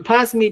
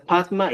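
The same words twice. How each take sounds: First: "pasmi" with s and final i; nonstandard variant. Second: "patma" with t and final a; standard form. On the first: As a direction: say "pasmi" as pas-mi. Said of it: "corregir algunas expresiones que no". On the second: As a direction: say "patma" as pat-ma. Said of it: "Se va a utilizar patma". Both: Shown as a demonstration.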